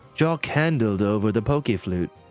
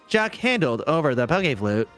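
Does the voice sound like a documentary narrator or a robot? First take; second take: documentary narrator; robot. First: It is said in a documentary narrator voice. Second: It is said in a flat robotic voice. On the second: "that was even worse ... I'm doing robot"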